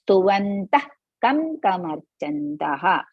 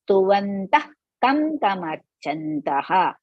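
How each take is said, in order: No difference in how they are said.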